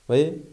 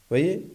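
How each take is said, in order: The two takes are said the same way.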